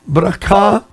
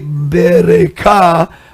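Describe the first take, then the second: First: The b and r are said together. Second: A vowel is heard between b and r. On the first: The speaker calls it right. "It's bra, bra" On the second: The speaker calls it wrong. "You don't say bereka"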